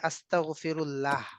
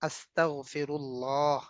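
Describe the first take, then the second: First: The final 'lah' vowel is short and plain. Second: The final 'lah' vowel is drawn out long. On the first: This is the everyday Bengali pronunciation. "বাংলায় হচ্ছে" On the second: This is the Arabic pronunciation. "এগুলো হচ্ছে লম্বা টান, straight হবে।"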